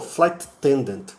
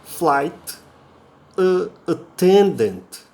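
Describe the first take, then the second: First: Said quickly with the words run together. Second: Said slowly with a break between the words. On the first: "no dia a dia, no comum, você fala tudo junto" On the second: "Você pronunciando assim mais devagar, você separa as palavras"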